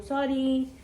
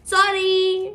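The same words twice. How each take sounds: First: Said in the usual way. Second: sorry said higher and louder, emphatic; loud sorry. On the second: Shown as a demonstration. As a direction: punch sorry up high and loud.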